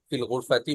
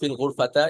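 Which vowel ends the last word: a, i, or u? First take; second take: i; a. First: The last word ends with an i vowel. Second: The last word ends with an a vowel. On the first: The speaker calls it right. "ফিল গুরফাতি বলতে হবে" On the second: The speaker calls it wrong. "এভাবে বলা যাবে না"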